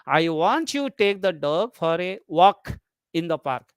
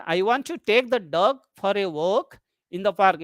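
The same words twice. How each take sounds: First: Focus on "walk", pitch change on that word; stress on WALK. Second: Focus placed on "dog"; stress on DOG. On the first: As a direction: make "walk" the word that matters, as against running. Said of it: "you focus on walk". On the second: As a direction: make "dog" the key word of the sentence. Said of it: "if you focus on the word dog". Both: Shown as a demonstration.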